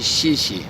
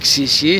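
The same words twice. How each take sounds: First: Each syllable begins with a soft sh-like sound. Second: Each syllable begins with a hard ks sound. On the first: The speaker calls it right. "c'est xie xie" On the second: The speaker calls it wrong. "c'est pas xie xie"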